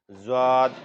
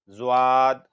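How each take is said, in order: Both takes have the same delivery.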